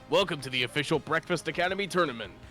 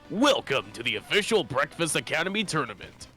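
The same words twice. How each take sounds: First: It is said in an ordinary speaking voice. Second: It is said in a put-on announcer voice.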